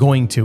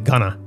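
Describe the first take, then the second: First: It is said as two full words. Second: It is said as one shortened word. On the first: "instead of saying going to" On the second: "we sort of shorten our words"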